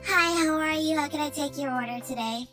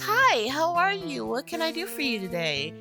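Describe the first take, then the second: First: The tone is disinterested and impatient. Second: The tone is warm and friendly.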